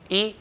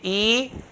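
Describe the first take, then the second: First: The vowel is short. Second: The vowel is stretched long. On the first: The speaker calls it right. "kasra, e" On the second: The speaker calls it wrong. "stretch the kasra a bit long"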